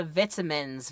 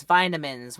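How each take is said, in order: First: Vitamins with a short i, VIT-amins; British pronunciation. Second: Vitamins with a long i, VY-tamins; American pronunciation. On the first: Giving a pick of two, vitamins with short i. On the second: Giving a pick of two, vitamins with long i. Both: Shown as a demonstration. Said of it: "whichever one. Take your pick".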